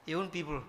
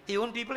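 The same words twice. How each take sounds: First: Owned stressed, lower and softer, falling at the end; quiet He owned people with owned stressed and falling. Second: People lifted with a rising tune; He owned people with people stressed and rising. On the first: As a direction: drop the voice and hit owned. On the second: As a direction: lean on the word people, rising at the end. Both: Shown as a demonstration.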